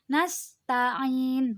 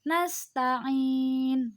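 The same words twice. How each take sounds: First: The vowel before the final n is held briefly. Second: The vowel before the final n is held moderately long. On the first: "satu alif atau dua harokat" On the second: "empat harokat"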